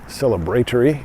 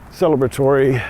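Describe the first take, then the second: First: It is said with a British pronunciation. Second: It is said with a non-British pronunciation.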